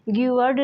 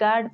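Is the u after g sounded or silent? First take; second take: sounded; silent. First: The u is pronounced after the g. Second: The u is left silent after the g. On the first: The speaker calls it wrong. "गिवर्ड नहीं" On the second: The speaker calls it right. "गार्ड पढ़ते हैं"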